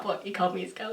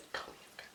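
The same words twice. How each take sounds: First: Said in the usual way. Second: Awed whisper of the best moment. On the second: Real, not acted. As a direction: hush it as if still in disbelief.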